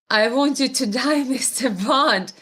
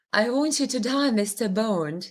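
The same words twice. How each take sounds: First: Said in the usual way. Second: Accented Bond line, tentatively performed; movie villain line on request. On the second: Shown as a demonstration. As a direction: try the Bond line in accent, dropping at the end. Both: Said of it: "Can you say in that awesome accent".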